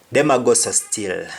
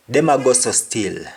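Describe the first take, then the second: First: Patois again; Jamaican patois. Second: Patois Them a go so still; Jamaican patois. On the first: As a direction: repeat Them a go so still. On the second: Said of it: "Meaning, they are still acting like that". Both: Shown as a demonstration.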